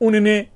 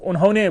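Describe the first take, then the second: First: The word is shortened, a sound dropped. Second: The word is said in full form. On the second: "उन्होंने बोलते ही नहीं"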